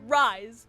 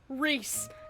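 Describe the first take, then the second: First: The vowel sounds like 'eye'. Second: The vowel sounds like 'ee'. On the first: This is how the name is actually pronounced. "why is it pronounced Rise" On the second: This is how the spelling suggests it is said. "when it is so clearly spelt Reese"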